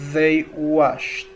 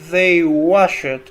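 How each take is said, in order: First: The ending is pronounced as a soft 't'. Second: The ending is pronounced as a full 'ed'. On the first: The speaker calls it right. "convertí la ed en una t suave" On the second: The speaker calls it wrong. "no pronuncié they washed"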